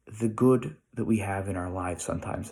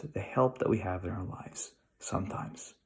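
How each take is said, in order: First: Said in the usual way. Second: Soft unvoiced whisper of the echoed line; hushed whisper repeating the thought. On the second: Shown as a demonstration. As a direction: breathe it like a confided secret.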